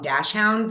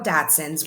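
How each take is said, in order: First: The ending sounds like the word 'hounds'. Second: The ending sounds like 'sunds', without an h.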